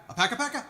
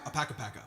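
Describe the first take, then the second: First: Puzzled echo. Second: Said in the usual way. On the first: Retold or imitated. Bandmate repeating the song name, puzzled and high. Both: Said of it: "as we used to say with the full band".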